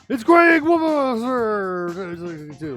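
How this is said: It is said in a booming announcer voice.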